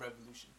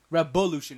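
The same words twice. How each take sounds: First: The second consonant is a v sound. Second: The second consonant is a b sound. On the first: The speaker calls it wrong. "not revolution" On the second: The speaker calls it right. "It's with no V, but a B"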